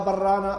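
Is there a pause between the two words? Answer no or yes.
no. The two words run together without a pause. The speaker calls it wrong. "فتصبح كلمة واحدة"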